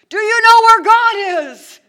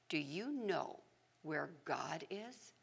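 First: It is shouted at full volume. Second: It is said quietly and calmly.

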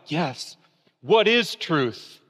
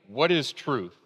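First: It sounds thoughtful and pondering. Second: It sounds dismissive and brushing off.

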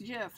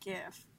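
First: The word begins with a J sound. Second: The word begins with a hard G sound. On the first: The speaker calls it right. "It's pronounced GIF" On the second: The speaker calls it wrong. "and not GIF"

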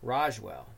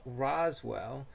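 First: The middle consonant is an sh sound. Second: The middle consonant is a plain s sound.

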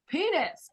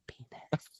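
First: It is said loudly. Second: It is said quietly.

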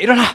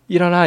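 First: It is said loudly and forcefully. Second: It is said softly and gently.

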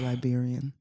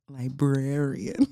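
First: The word is squeezed to sound like Liberian. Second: The word is said in full as librarian. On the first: The speaker calls it wrong. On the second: The speaker calls it right.

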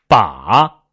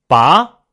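First: The pitch dips low then rises. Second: The pitch rises from mid to high. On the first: "拐弯" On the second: "扬"

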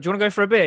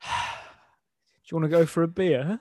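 First: It is said in an ordinary, upbeat way. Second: It is said with a sigh, sounding exhausted.

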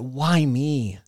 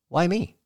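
First: It is said in a self-pitying, victim-like tone. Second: It is said in a curious, hopeful tone. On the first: Life is happening against the speaker. The speaker calls it wrong. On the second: There is something to gain in what is happening. The speaker calls it right.

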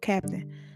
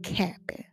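First: The word is fully pronounced, with both syllables clear. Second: The word is clipped, with the middle reduced. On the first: The speaker calls it right. "Captain, not Cap'n" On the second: The speaker calls it wrong. "not Cap'n. Lord, I need to learn to enunciate"

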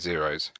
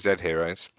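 First: It is one word with a silent h. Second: The letter Z and the word heroes are separate. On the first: "Jack's been pronouncing it Zeros" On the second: "I've been pronouncing it Zed Heroes"

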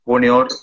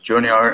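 First: The name is said with a Spanish pronunciation. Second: The name is said with an English pronunciation. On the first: "Like in South America, it's Junior" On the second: "like English version is Junior"

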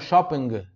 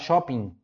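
First: Said the Italian way, with an audible final G. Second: Said the Brazilian way, without a final G sound.

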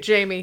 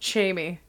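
First: The name is said in a plain, ordinary way. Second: The name is said in an imitated foreign accent. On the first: This is the correct way to say the name. The speaker calls it right. "he doesn't say Jamie" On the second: This is how someone else mispronounces the name. The speaker calls it wrong. "He says Jamie. He can't say his own son's name correctly"

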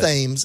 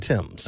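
First: The word begins with a 'th' sound. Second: The word begins with a plain 't' sound. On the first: The speaker calls it wrong. "It's not the Thames" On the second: The speaker calls it right. "it's the Thames"

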